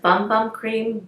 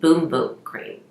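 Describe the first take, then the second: First: The vowel sounds like the one in 'gum'. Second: The vowel sounds like the one in 'room'. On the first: "It says" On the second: "they pronounce it"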